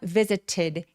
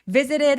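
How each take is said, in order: First: The t is a clear, full stop. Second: The t is a quick flap. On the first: "visited 해도 되지만" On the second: "T가 굴러가냐면"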